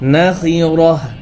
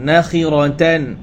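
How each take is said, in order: First: The word ends with an h sound. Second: The word ends with a tan sound. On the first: The reader stops on this word. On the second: The reading continues without a stop.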